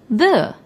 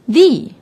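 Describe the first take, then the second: First: The vowel is short and weak, like 'thuh'. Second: The vowel is long and high, like 'thee'. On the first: The next word starts with a consonant. "if the is before a noun that doesn't start with a vowel, we say the" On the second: The next word starts with a vowel. "if it is before a noun that starts with a vowel, we say the"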